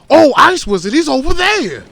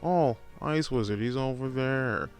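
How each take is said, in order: First: It is said with big, exaggerated excitement. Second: It is said calmly, with little energy.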